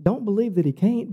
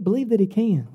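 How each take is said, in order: First: "can't" lifted at the end; rising tune that lands on "can't"; stress on CAN'T. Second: "can" stressed with a falling close. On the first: Preacher warning the congregation against doubt, stress on "can't". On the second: Preacher urging the congregation to believe, stress on "can". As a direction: settle firmly downward on "can". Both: Real, not acted.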